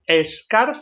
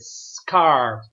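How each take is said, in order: First: An extra vowel sound comes before the s. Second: The word starts directly with the s sound. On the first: The speaker calls it wrong. "Don't say a scarf. A scarf, no. Because there is no E" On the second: The speaker calls it right. "Como si no lleva la E"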